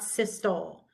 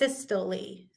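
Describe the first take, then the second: First: The word is said with two syllables. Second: The word is said with three syllables. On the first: The speaker calls it wrong. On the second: The speaker calls it right. "This is systole, three"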